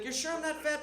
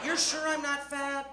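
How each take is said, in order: First: High-voiced kid seeking reassurance; doubting child. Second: Slow, high-pitched, drawn-out doubt; insistent doubting child. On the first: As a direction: ask mum timidly, pitched up. Child asks mother for reassurance. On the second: Retold or imitated. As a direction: stretch the question out, pleading for the truth. Child asks again, more doubtfully.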